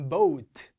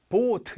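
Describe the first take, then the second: First: Boat as BO-UT, louder and long; o gliding to u. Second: Boat with one pure o, BOT; missing u glide. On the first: Teacher correcting students, boat with a full o-to-u glide. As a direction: push boat from o into a clear u. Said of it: "우 소리가 나야 돼". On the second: Teacher showing the mistake, boat as plain BOT. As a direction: cut the u out of boat. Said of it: "이러면 안 됩니다". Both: Shown as a demonstration.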